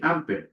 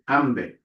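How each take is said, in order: First: The consonant after m is a p sound. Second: The consonant after m is a b sound. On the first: The speaker calls it wrong. "we don't actually say ampe" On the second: The speaker calls it right. "We say ambe"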